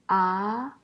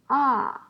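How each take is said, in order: First: The pitch rises from middle to high. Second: The pitch falls sharply from high to low.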